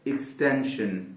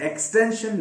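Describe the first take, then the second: First: एक्सटेंशन softly, starting with a short इक्स; quiet teacher's model of एक्सटेंशन; correct pronunciation. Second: एक्सटेंशन with a full open एक्स; mock learner's एक्सटेंशन; wrong pronunciation demo. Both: Shown as a demonstration. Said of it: "एक्सटेंशन नहीं".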